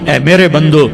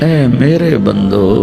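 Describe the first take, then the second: First: It is said in a plain, flat tone. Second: It is said in a tender, loving tone. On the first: The speaker calls it wrong. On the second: The speaker calls it right.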